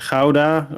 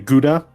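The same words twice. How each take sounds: First: Gouda is pronounced in a non-American way. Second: Gouda is pronounced in the American way.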